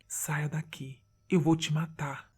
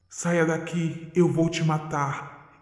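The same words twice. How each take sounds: First: It is said very quietly. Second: It is shouted with hatred.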